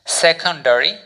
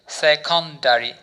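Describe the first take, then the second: First: Said in the usual way. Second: secondary said slowly, each syllable spelled out; slow model word. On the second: Shown as a demonstration. Teacher models secondary for students to repeat, slowly. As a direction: drag out secondary so students can copy it. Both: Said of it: "উচ্চারণ করুন আমার সাথে".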